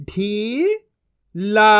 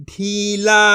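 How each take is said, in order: First: ढीला split into ढी, pause, ला; syllable by syllable. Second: ढीला as one joined word; level ढीला with no pause inside; blended reading. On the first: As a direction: sound out ढीला in two syllables. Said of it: "एक एक अक्षर का उच्चारण करके". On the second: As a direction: join ढी and ला. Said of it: "इनको आपस मिला के पढ़". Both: Shown as a demonstration.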